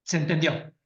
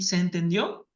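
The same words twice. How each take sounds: First: "Se entendió." as a flat statement, low and falling on "entendió"; falling statement tune. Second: "¿Se entendió?" with the voice rising on "entendió"; rising question tune. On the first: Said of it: "o afirmar". (afirmación con tono descendente en "Se entendió") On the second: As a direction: ask it, pitch going up at the end of "entendió". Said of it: "es el tono de voz lo que ... entre preguntar". (pregunta con tono ascendente en "entendió") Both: Shown as a demonstration.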